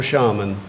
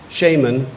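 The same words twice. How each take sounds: First: Shaman said SHAH-mun; second pronunciation. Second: Shaman said SHAY-mun; first pronunciation. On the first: Pronouncer repeats the other option for the speller, shaman as SHAH-mun. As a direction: say shaman with "ah", not "ay", in the first syllable. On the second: Pronouncer repeats the first option for the speller, Shaman as SHAY-mun. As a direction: say Shaman so it starts like "shame". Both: Shown as a demonstration. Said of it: "you've got two pronunciations".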